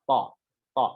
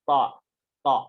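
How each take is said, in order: No difference in how they are said.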